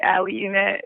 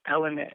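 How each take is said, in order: First: "Alianet" said as "Ah-lee-ah-net", an added "ee" syllable after the L; extra syllables. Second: "Alianet" said as "AL-uh-net", three syllables like Lynette with an A in front; correct name. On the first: Retold or imitated. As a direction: stretch "Alianet" out with an extra syllable, the way others get it wrong. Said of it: "throw some extra syllables". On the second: Shown as a demonstration. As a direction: say "Alianet" simply, "A" plus "Lynette". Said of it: "it's just Alianet".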